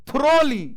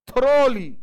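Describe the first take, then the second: Both takes have the same delivery.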